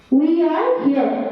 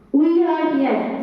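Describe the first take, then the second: No difference in how they are said.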